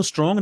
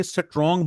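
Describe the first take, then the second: First: स्ट्रॉन्ग said starting straight on str, no vowel before or inside the cluster; correct English strong. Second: स्ट्रॉन्ग said as e-sa-trong, with a vowel before s and another inside the cluster; Urdu-style istrong. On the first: Teacher showing students the correct English strong. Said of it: "हम इसको स्ट्रॉन्ग नहीं बोलते". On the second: Teacher imitating how Urdu speakers say strong. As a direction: pad स्ट्रॉन्ग with extra vowels, esatrong. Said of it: "स्ट्रॉन्ग बोलते हैं". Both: Shown as a demonstration.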